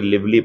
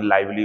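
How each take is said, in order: First: The first vowel is short, as in 'liv'. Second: The first vowel is long, as in 'live'. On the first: The speaker calls it wrong. "Sir ये लिवली पढ़ा आपने" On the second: The speaker calls it right. "लाइवली होता, वो सही है"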